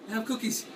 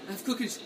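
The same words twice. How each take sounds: The two takes are said the same way.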